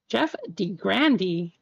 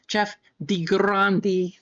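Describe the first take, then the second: First: Grande is said with an American pronunciation. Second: Grande is said with a non-American pronunciation.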